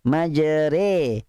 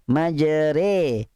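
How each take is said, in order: First: The vowel after r is tilted toward i. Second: The same.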